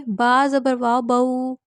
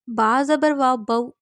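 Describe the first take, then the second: First: بو said gently, neither jerked nor stretched, voice gliding down; بو read smoothly with a gentle downward glide; soft correct pronunciation. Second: بو cut short with a sudden jolt on the vowel; بو clipped with a jerk, not gliding down; jerked pronunciation. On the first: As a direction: let بو fall softly and evenly. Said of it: "نرمی سے معروف پڑھنے کا مطلب ہے". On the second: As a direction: snap the بو off abruptly, the wrong way. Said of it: "اس طرح بھی نہیں پڑھیں گے". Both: Shown as a demonstration.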